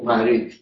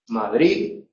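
First: The final consonant is a th sound. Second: The final consonant is dropped entirely. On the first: "eso se convierte en Z, se hace interdental" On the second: "lo castizo es Madrid ... Donde la D final no se pronuncia"

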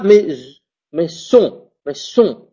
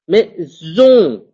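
First: The middle consonant is a hissing s sound. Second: The middle consonant is a buzzing z sound. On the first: The speaker calls it wrong. "Je dis pas mais son, non" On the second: The speaker calls it right. "je prononce comme un Z"

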